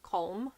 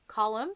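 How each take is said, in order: First: Colm in one syllable, like COME with an O, kolm; wrong Colm. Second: Colm in two syllables, COL-um; correct Colm. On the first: Showing viewers the wrong name, one-syllable Colm. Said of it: "it's not like". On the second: Teaching viewers an author's first name, COL-um. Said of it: "it's not like Colm". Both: Shown as a demonstration.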